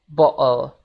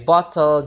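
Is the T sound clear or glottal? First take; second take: glottal; clear. First: The T is a glottal stop. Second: The T is fully pronounced.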